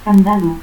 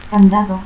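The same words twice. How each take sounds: First: Candado as "candalo". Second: Said in the usual way. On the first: Shown as a demonstration. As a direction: turn the last D of candado into L. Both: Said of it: "confusión de D y L".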